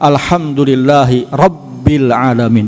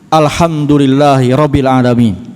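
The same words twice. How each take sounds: First: The doubled consonant is held long. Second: The doubled consonant is cut short. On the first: The speaker calls it right. "dengan tasydid" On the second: The speaker calls it wrong. "dia nggak baca tasydid"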